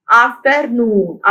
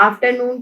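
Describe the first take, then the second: First: afternoon slowly split as af-ter-noon; teacher's slow af, ter, noon for afternoon; syllable by syllable. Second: Said in the usual way. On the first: Shown as a demonstration. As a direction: sound out afternoon in three measured beats. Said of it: "afternoon के कितने syllables हैं". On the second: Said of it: "कितने syllables हैं".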